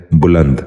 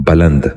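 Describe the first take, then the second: First: بلند said as buland, with a short u in the first syllable; correct pronunciation. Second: بلند said as baland, with a short a in the first syllable; wrong pronunciation. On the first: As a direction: give بلند its proper u: buland. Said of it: "درست تلفظ ہے". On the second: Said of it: "یہ غلط تلفظ ہے". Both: Shown as a demonstration.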